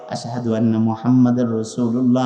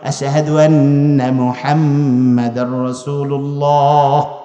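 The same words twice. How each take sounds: First: The phrase is said softly and quietly. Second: The phrase is said loudly and openly. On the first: The speaker is afraid of being overheard. "আস্তে আস্তে কয়" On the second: The speaker declares it openly without fear. "জোরে বলছে"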